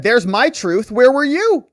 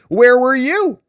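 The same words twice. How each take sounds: First: Higher, louder, pushing back hard; mock indignant shout. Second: Higher, louder, accusing; mock demanding shout. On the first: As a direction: throw the question back at her, loud. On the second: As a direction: fling the question at her. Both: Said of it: "Hunter said".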